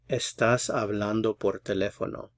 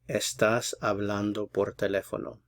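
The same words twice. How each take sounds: No difference in how they are said.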